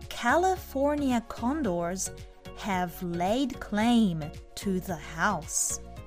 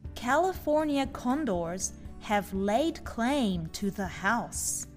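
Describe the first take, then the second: First: The sentence is read at a slow pace. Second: The sentence is read at a normal pace.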